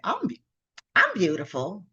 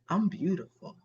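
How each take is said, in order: First: It sounds hesitant and unconvinced. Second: It sounds confident and convinced. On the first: The speaker does not really believe it. The speaker calls it wrong. "You maybe you don't really believe that" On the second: The speaker truly believes it. The speaker calls it right. "doesn't that sound like you're really convinced about it?"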